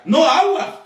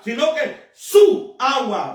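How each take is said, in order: First: Said in the usual way. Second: Su pressed slow and firm before agua; slow it down and lean on su; stress on su. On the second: Shown as a demonstration. Preacher correcting the congregation, slow weight on su.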